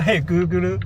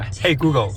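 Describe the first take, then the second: First: It is said with a Japanese English accent. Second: It is said with a standard English accent. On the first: "这是日式英语" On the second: "正常来叫"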